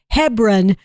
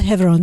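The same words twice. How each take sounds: First: The name is said with the local American pronunciation. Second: The name is said with the Israeli pronunciation. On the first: The speaker calls it right. "No, it's Hebron, Kentucky" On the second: The speaker calls it wrong. "I want to always say that the Israeli pronunciation"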